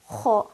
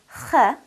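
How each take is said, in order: First: The sound is heavy, with a full rounded mouth. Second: The sound is light, with a horizontally stretched mouth. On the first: The speaker calls it right. "pronounced with a rounded mouth full of air to produce a heavy, full sound" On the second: The speaker calls it wrong. "stretching my mouth with um, horizontally and giving it a soft, light quality. That would be incorrect"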